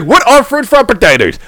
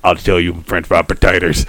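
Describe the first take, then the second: First: Higher-pitched mock puzzled question; puzzled questioner. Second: Very low, softer Sling Blade voice. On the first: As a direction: ask it high, as the baffled straight man. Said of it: "he's like". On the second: Acted. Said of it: "redneck Aramaic".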